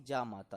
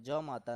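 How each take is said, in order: First: जा माता with a long aa on जा, the right way; correct long जा. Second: ज माता with a short a on ज, the wrong way; ज माता said short as the mistake. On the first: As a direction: stretch the vowel of जा into a full long aa. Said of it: "तो जा माता होता है". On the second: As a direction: clip the vowel in ज to a quick short a. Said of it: "ज माता नहीं". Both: Shown as a demonstration.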